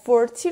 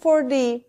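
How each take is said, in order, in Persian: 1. صامت میانی یک صدای t واضح است. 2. صامت میانی یک صدای d نرم است. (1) "چرا مثلا 40 رو میگیم" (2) "برای قشنگتر شدن لهجمون تیو دی تلفظ میکنیم"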